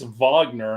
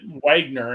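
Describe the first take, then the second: First: The name starts with a V sound. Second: The name starts with a W sound. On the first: The speaker calls it right. "Damn Germans and their V's for W" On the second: The speaker calls it wrong. "I called it Wagner"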